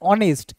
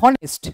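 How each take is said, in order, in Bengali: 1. শব্দটি স্বরবর্ণ দিয়ে শুরু হয়, এতে কোনো এইচ নেই। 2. শব্দটি একটি স্পষ্ট এইচ ধ্বনি দিয়ে শুরু হয়। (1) "এইচ এর উচ্চারণ হচ্ছে না" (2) "যদি বলতাম এটা হনেস্ট, সেটা তো হচ্ছে না"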